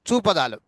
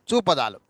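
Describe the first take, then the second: No difference in how they are said.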